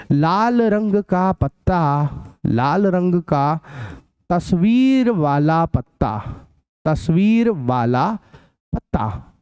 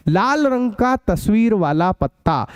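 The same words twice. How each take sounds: First: Slow, word by word, so students can write it; slow dictation. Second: Said in the usual way. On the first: Shown as a demonstration. Teacher dictating the question to the class, slow and spaced. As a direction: dictate each chunk slowly with pauses.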